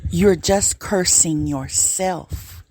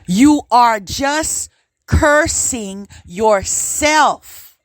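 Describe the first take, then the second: First: It is said in the ordinary speaking voice. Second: It is said in a firm, stern teacher voice.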